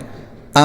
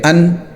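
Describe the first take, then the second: First: The n is hidden as nasal sound through the nose. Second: A full n with the tongue touching the palate. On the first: The speaker calls it right. "नून की आवाज़ को नाक में छुपाना है" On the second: The speaker calls it wrong. "बगैर इख्फा के ... ज़बान ... तालू को लग रही है"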